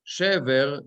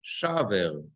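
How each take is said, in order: First: "Shever" with an eh first vowel, SHEH-ver; unchanged vowel. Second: "shaver" with an ah first vowel, SHAH-ver; changed pausal vowel. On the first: Teacher showing the normal word form, "Shever" with eh. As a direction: say "Shever" with a short e. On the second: Teacher showing the sentence-end form, "shaver" with ah. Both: Shown as a demonstration. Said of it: "Shever becomes".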